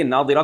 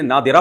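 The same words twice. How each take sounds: First: نادرہ said with heavy ض in the middle; ḍād reading. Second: نادرہ with a d sound replacing ḍād; read with dāl. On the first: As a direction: say نادرہ with the ḍād, not plain d. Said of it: "کو کسی نے نادرہ پڑھ دیا". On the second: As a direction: say نادرہ as nadira, with a d. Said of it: "دال کے مشابہ ہوتا". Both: Shown as a demonstration.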